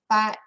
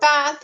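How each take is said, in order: First: The word ends with a T sound. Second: The word ends with a TH sound. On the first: "they would say bat" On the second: "bath in English"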